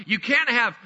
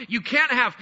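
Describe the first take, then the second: No difference in how they are said.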